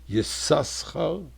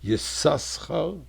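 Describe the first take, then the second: First: The name has two s sounds. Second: The same.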